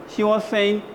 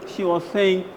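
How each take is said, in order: The two takes are said the same way.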